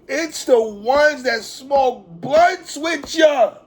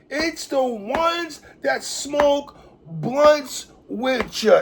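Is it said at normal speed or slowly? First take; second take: normal; slowly. First: It is said at normal speed. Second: It is said slowly, in a conceited voice.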